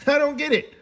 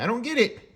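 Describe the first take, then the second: First: Laughing through the repeat; disbelieving laugh on the words. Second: Said in the usual way. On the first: Real, not acted. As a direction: let a laugh break into it. Repeats line, second laughing.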